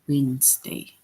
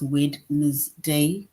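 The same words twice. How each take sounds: First: Some written letters are left silent. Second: Every written letter is sounded out. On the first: The speaker calls it right. "we just say Wednesday" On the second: The speaker calls it wrong. "we don't say it as Wednesday"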